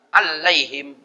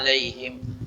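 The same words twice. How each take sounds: First: The l sound is held long and doubled. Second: The l sound is short and single. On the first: The speaker calls it wrong. "dibaca tasdid. Alaihim batal" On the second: The speaker calls it right. "Al-alaihim kan tidak tasdid"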